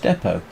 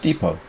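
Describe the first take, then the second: First: The word is said with a British pronunciation. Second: The word is said with an American pronunciation. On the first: The listener did not understand the word. The speaker calls it wrong. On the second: The listener understood the word. The speaker calls it right.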